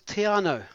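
It is said with Māori vowels and syllables. The speaker calls it right. "Brilliant pronunciation"

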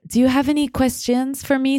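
It is said imitating Sylvie's French accent.

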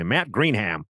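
The name is said in an American way.

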